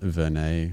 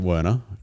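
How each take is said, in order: First: The surname is said in a European way. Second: The surname is said in an anglicized way. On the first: This is probably the original pronunciation. "there's probably a more correct European way" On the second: This is how the family says it. "So we pronounce it Werner"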